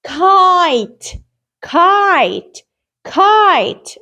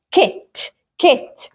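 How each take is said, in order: First: "kite" with a drawn-out "eye" vowel, falling at the end; long I. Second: "كت" as kit, with a brief short-i vowel. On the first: Teacher shows what magic E does to the word, long I. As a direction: stretch the letter-name I in "kite". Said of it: "I pronounce it as kite". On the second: Teacher reads the word before adding magic E, short I. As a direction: say "كت" with the i of "ink". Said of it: "صوت ال I وهو short". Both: Shown as a demonstration.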